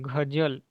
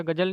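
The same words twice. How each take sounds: First: Teacher gives the right गजल with a z; correct pronunciation. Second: गजल said with a plain j sound, as it should not be; teacher shows the wrong गजल with a hard j; wrong pronunciation. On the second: Teacher shows students the wrong way, plain j. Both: Shown as a demonstration. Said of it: "ऐसा गजल नहीं होता".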